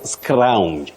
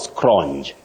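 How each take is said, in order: First: The vowel glides through an ow sound. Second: The vowel stays steady without an ow glide. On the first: The speaker calls it right. "Just like scrounge" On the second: The speaker calls it wrong. "not scrounge"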